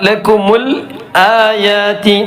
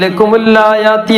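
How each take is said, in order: First: The long vowel is clearly held after the lam. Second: The lam runs straight into the vowel. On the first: The speaker calls it right. "ലക്കുമുൽ ആയാതി ആ നീട്ടണം" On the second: The speaker calls it wrong. "ചിലപ്പോൾ ഇങ്ങനെ ആകാൻ സാധ്യതയുണ്ട്"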